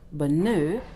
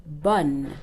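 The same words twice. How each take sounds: First: Bonheur as "buh-NUH", ending in French "euh"; wrongly voiced final E. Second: Bonne in one syllable, "bun"; silent final E. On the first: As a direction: end bonheur on a rounded "euh", no R. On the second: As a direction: close bonne on the N, nothing after. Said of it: "the E without an accent is silent". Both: Shown as a demonstration.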